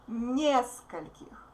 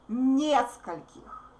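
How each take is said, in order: First: The stress is on the first syllable. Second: The stress is on the first syllable.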